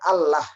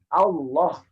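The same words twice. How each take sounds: First: The l is pronounced thin and light. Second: The l is pronounced thick and heavy. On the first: The speaker calls it wrong. "kenapa bukan Allah?" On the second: The speaker calls it right. "lafaz ini lamnya dibaca tebal"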